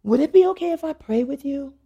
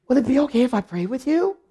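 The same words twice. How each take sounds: First: Mildly hesitant retold question, slightly raised pitch; tentative request. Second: Higher voice swooping up into the question; mock astonished asking, rising at the end; awed request. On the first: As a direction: gently ask permission, imitating her. Deacon's first tentative request, retold. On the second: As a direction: imitate her asking, suddenly awestruck. Deacon asks after learning of pastor.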